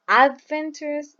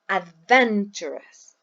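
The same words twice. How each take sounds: First: The stress is not on the second syllable. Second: The stress is on the second syllable. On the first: The speaker calls it wrong. "We don't say adventurous" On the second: The speaker calls it right. "we say adventurous"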